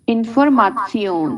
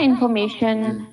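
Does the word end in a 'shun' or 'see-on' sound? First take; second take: see-on; shun. First: The ending is pronounced like 'see-on'. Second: The ending is pronounced like 'shun'. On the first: This is the German pronunciation. "आप इसको प्रोनाउंस करेंगे जर्मन में" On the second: This is the English pronunciation. "इसको हम शन करके प्रोनाउंस करते हैं"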